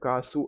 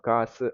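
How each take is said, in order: First: The final vowel is said with rounded lips. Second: The final vowel is said with unrounded lips. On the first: The speaker calls it wrong. "காசு அப்படின்னு படிக்காம" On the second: The speaker calls it right. "Lips round பண்ணி சொல்ல மாட்டோம்"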